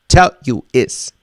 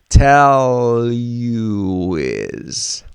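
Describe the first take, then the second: First: The words are choppy, with breaks between them. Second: The words flow smoothly together without breaks.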